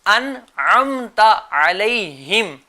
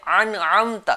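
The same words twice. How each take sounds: First: Slow correct recitation of انعمت; correct pronunciation. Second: انعمت with the hamza pushed into an ain; deliberately wrong انعمت; wrong pronunciation. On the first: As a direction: model the right reading, drawn out. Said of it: "آسان تلفظ کیا ہے اور صحیح تلفظ کیا ہے". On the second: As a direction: demo the common mistake, hamza as ain. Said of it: "یہ غلط ہے". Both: Shown as a demonstration.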